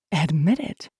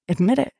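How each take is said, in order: First: Measured demand at ordinary pitch; firm demand. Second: Higher-pitched demand, rising at the end; insistent demand. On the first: Woman presses her lover to confess, firm. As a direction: repeat it steadily with a rising end. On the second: Woman demands a confession from her lover, insistent. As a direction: push for a confession. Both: A narrator's reading.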